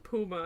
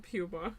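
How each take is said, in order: First: It is said in an American accent. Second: It is said in a British accent.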